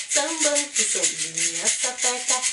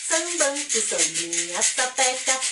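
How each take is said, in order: Both takes have the same delivery.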